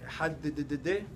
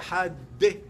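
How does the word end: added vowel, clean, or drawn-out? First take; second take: drawn-out; added vowel. First: The final d is repeated and drawn out. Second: An extra vowel follows the final d. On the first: "זה הוסיף בקריאת שמע מאותיות שלא צריך להוסיף" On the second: "הוא הוסיף ההגיה שמה שלא צריך להוסיף"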